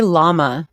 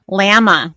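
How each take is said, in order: First: "llama" with open AH; "llama" with the A of father; corrected pronunciation. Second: Loud, high "Llama" as LAM-uh; mock "Llama" with a flat short A; "Llama" with the A of cat, pitched up; mocked pronunciation. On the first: Shown as a demonstration. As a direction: say "llama" as LAH-muh. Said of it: "Say llama". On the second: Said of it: "fun of someone's accent".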